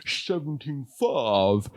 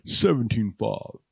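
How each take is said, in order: First: Slow, deadpan price quote; a hint of Hitchcock. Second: Said in the usual way. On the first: Comedian still in a light Hitchcock voice quoting a price. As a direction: draw out the price slowly and dry. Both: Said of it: "See how I did that".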